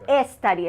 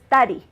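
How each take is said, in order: First: An extra vowel sound comes before the s. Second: The word starts directly with the s sound. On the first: The speaker calls it wrong. "it's not a study" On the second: The speaker calls it right. "resist the urge to add an E"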